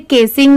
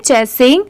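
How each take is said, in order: First: The word begins with a k sound. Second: The word begins with a ch sound. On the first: The speaker calls it wrong. "यहाँ पर इसे केसिंग नहीं पढ़ेंगे कि सी की sound क से आ रही है" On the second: The speaker calls it right. "इसे हम पढ़ेंगे चेसिंग"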